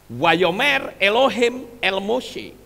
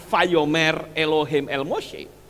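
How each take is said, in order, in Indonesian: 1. Kata pertama dimulai dengan bunyi w. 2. Kata pertama dimulai dengan bunyi v. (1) "Di situ ditulis apa?" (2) "Kenapa bukan"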